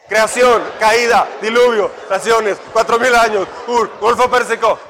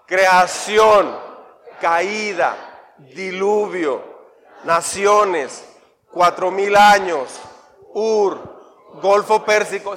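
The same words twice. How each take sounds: First: The list is recited very fast. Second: The list is recited at a normal pace.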